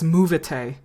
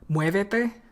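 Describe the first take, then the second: First: The first syllable has a plain o, no glide. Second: The first syllable has a w-glide before e. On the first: The speaker calls it wrong. "He says movete" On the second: The speaker calls it right. "he sees an accent on muévete"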